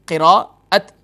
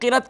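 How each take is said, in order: First: The word has three syllables with a break. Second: The word is squeezed into two short syllables. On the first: The speaker calls it right. "असल लफ्ज़ है क़िराअत" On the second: The speaker calls it wrong. "क़िरत कहना दुरुस्त नहीं"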